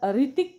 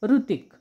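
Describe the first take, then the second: First: The first syllable is pronounced "ri". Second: The first syllable is pronounced "ru". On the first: "काही जण याचा उच्चार ऋतिक करतात री ती क" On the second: "उकारासारखा पण करतात"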